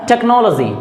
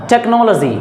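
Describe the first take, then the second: The two takes are said the same way.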